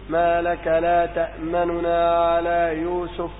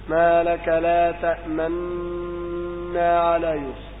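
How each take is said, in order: First: A faint, quick vowel separates the two n sounds. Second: The two n sounds merge into one doubled n. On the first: "وأما الروم وهو الإتيان ببعض الحركة" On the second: "والإشمام هو إشارة بالشفتين أثناء نطق الحرف"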